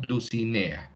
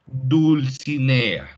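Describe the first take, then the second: First: Dulcinea said as "Ducinea", the L left out; dropped L. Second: Dulcinea read out slowly, syllable by syllable, with its L; reading a child's text aloud, slowly; slow careful reading. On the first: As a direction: say Dulcinea without the L, as the child wrote it. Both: Shown as a demonstration. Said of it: "Se pierde la L".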